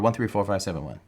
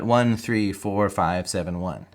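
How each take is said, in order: First: The numbers are said quickly in a rush. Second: The numbers are said at a slower pace. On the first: "Not that fast"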